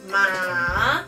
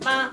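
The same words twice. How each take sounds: First: The pitch goes down and then back up. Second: The pitch is level but said very quickly. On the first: "Tercer tono empieza de arriba, baja y vuelve a subir" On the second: "el quinto ... es como el primero, pero más rapidito"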